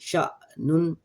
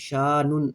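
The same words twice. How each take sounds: First: The first vowel is cut by a glottal catch. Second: The first vowel flows on without a catch. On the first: The speaker calls it right. "शा हल्का सा झटका" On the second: The speaker calls it wrong. "शीन ज़बर शा नहीं पढ़ना है, शानुन ये गलत है"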